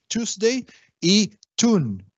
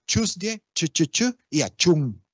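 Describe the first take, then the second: First: TUESDAY ending in English 'ey'; slow, higher TUESDAY y TUNE, English style; English pronunciation. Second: TUESDAY as 'chuz-dyeh', starting with 'ch'; Creole 'ch' onset. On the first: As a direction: say TUESDAY as 'chooz-dey'. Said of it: "en inglés es". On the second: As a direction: hammer the 'chu' in TUESDAY and CHUN. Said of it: "en criollo evoluciona". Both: Shown as a demonstration.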